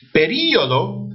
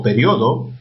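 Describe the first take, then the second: First: "Período" as pe-RÍ-o-do; stress on the I. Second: "periodo" as pe-RIO-do; stress on the O. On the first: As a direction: break "Período" after a strong RÍ. ("Período" con acento en RÍ) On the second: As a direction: glide IO together in "periodo", weight on the O. ("periodo" con acento en RIO) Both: Shown as a demonstration. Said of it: "palabras con doble acentuación".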